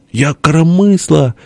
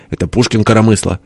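First: High, slow character wail; plaintive boast. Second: Brisk correction, much nearer normal pitch; quick retort. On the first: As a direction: draw the claim out high. (высоко и протяжно, настаивая) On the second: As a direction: toss back the rebuttal. (короткое возражение, почти обычным голосом) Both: A narrator's reading. Перепалка: похвальба и возражение.

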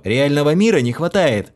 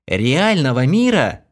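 First: A mildly whining question about мира; plaintive. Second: A slow, high puzzled echo of мира; astonished. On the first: The hero whines about the actress, plaintive. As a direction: mira said as a tired moan. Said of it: "Издал я жалобный стон". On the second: Хлоя echoes the hero in amazement. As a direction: echo the words in disbelief. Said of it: "поразилась Хлоя". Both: A narrator's reading.

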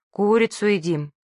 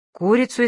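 First: Said in the usual way. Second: Startled rising question; shocked high pitched echo; alarmed. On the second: A narrator's reading. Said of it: "испугался папа".

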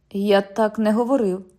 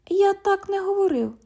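First: Said in the usual way. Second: Much higher, mocking copy of the cop; mocking mimicry. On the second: London mimics the cop's denial, high and mocking. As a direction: throw his words back high.

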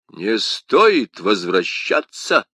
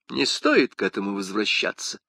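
First: Indignant exclamation. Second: Said in the usual way. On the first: A narrator's reading. Porthos echoing Aramis in indignant disbelief. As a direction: throw his words back in outrage. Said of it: "воскликнул Портос".

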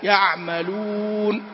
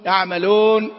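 First: يعملون drawn out, with a pure rounded u; correct pure u. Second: يعملون with a non-Arabic, mixed final vowel; wrong vowel. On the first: Teacher giving the correct يعملون after the error. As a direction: say يعملون slowly, lips fully rounded. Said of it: "إدخال الكسر أو الفتح عليها، لا". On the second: Teacher imitating a student's wrong vowel in يعملون. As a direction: sing يعملون with a foreign-sounding u. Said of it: "هذا الصوت غير موجود في العربية". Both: Shown as a demonstration.

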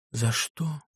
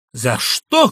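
First: Soft, gentle question; a doctor's soft, gentle query; gently asked. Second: Loud, angry retort; a patient's loud, angry echo; shouted. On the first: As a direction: ask it softly and kindly. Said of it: "спросил мягко". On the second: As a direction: hurl the question back in a shout. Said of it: "крикнул Иван Дмитрич". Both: A narrator's reading.

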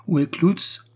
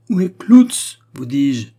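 First: High, rough-mannered question; brusque demand. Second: Much louder, high-pitched insistence; impatient loud demand. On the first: Steward demanding the vicar from the pastor's household, brusquely. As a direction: demand it rudely, without preamble. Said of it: "demanda rudement Delvig". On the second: Steward repeating his ignored question to the pastor's household, loudly impatient. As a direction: repeat it forcefully, losing patience. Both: A narrator's reading.

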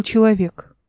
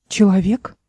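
First: Said in the usual way. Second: A puzzled, rising echo of the word «Человек?»; unbelieving echo of «Человек?», lifting at the end; surprised question. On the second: Acted. Эл, startled at a man, asks in disbelief.

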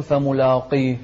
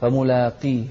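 First: فملاقيه with a heavy, dark "law"; wrong thickened alif. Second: فملاقيه with a thin, light "laa"; light alif. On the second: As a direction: keep the لا in فملاقيه light before the ق. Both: Shown as a demonstration. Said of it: "لا تقول".

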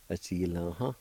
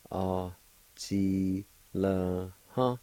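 First: Said in the usual way. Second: Each syllable stretched and set apart; syllable-by-syllable pronunciation. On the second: Shown as a demonstration. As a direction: sound it out piece by piece. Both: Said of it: "It's pronounced like this".

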